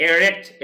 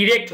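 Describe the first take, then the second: First: এরেক্ট with an open e sound at the start; correct pronunciation. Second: ইরেক্ট with a clear i sound at the start; wrong pronunciation. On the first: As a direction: say এরেক্ট beginning with এ, the right way. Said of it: "এরেক্ট এরকম হবে". (সঠিক উচ্চারণ, এ দিয়ে এরেক্ট) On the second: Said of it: "ইরেক্ট হবে না কিন্তু". (ভুল উচ্চারণ, ই দিয়ে ইরেক্ট) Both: Shown as a demonstration.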